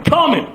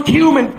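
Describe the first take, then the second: First: Cumin said as KUM-in; joke pronunciation of cumin. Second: Cumin said as KYOO-min; correct pronunciation of cumin. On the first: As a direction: say cumin with a "kum" first syllable. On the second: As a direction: say cumin with a "kyoo" first syllable. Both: Shown as a demonstration. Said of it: "He thinks it's funny to pronounce cumin".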